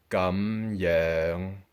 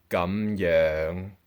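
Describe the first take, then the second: Both takes have the same delivery.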